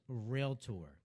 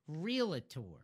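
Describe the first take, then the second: First: It is said with two syllables, like doctor. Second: It is said with an extra middle syllable. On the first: The speaker calls it right. "the word is realtor" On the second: The speaker calls it wrong. "not realtor"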